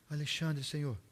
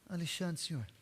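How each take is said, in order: First: It is said louder, with more voice. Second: It is said quietly and timidly.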